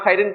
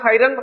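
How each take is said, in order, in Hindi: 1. शब्द का अंत -in ध्वनि से होता है। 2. शब्द का अंत -an ध्वनि से होता है। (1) "ना खैरिन पढ़ सकते" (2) "ना खैरन"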